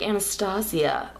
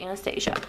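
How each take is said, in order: First: The name is said in a fancy, elaborate way. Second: The name is said in a plain, ordinary way. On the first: "some people say it really fancy" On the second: "I'm gonna say Anastasia"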